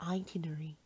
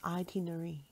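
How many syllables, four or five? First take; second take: four; four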